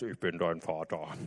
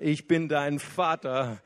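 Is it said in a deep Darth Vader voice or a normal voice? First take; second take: Darth Vader; normal. First: It is said in a deep Darth Vader voice. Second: It is said in his normal, warm voice.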